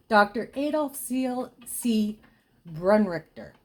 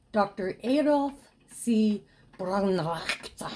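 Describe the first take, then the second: First: Said in the usual way. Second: German accent. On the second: Shown as a demonstration. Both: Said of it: "my German accent is even worse".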